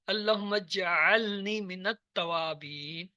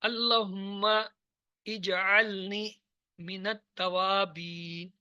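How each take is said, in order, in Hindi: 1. शब्द एक ही प्रवाह में मिलाकर बोले जाते हैं। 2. शब्द एक-दूसरे से अलग-अलग बोले जाते हैं।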